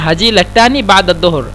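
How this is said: The first word starts with a j sound. It is how people from Upper Egypt say it. "তারা বলে জিম দিয়ে"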